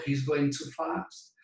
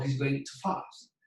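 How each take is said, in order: First: Too stressed in full, He's going too fast; strong too. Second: Too reduced to a weak to, He's going too fast. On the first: Teacher shows too meaning excessively. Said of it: "demasiado rápido". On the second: Teacher shows weak to, to fast. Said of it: "va a ayunar". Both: Shown as a demonstration.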